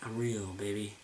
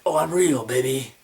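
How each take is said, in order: First: The line is delivered in a subtle, understated way. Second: The line is delivered in an exaggerated way.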